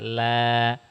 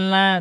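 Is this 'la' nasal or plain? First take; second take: plain; nasal. First: The syllable is said with a plain, non-nasal voice. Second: The syllable is said with a strongly nasal voice. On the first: The speaker calls it right. "tapi la biasa" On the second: The speaker calls it wrong. "Ibu suaranya banyak ke hidung. Masa la, bukan la"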